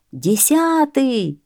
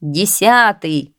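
First: Light, high crowd cry; crowd's cry. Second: Slow, stretched call, moderately raised; shouted count. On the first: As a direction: echo the count high and stretched. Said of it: "кричит народ". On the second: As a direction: draw the number out like a scorer. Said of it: "кричат сеньоры". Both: A narrator's reading.

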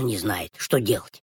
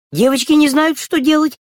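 First: Low kitten voice. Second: Put-on high girls' voice. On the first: Acted. Kitten's part set against girls. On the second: Girls' part set against kitten.

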